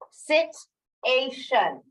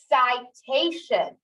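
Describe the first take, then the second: First: The first vowel is short, as in sit. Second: The first vowel is long, as in site. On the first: "Is this sit? ... That doesn't sound right" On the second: "My only other option is I. ... Cite"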